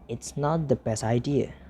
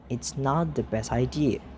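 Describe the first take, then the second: No difference in how they are said.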